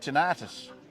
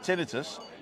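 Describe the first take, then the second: First: It is said the American way. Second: It is said the non-American way. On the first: "I heard an American say tinnitus" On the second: "I've always said tinnitus"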